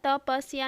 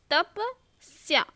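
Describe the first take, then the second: First: "तपस्या" as ta-pa-si-ya; wrong extra vowel. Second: "तपस्या" slowly as tap, pause, sya; half s. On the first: Teacher quoting the error to students, mispronounced. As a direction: put an i between s and ya in "तपस्या". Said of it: "तपस्या नहीं बोलते". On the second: Teacher showing the half s, slow and segmented. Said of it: "आधा स या". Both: Shown as a demonstration.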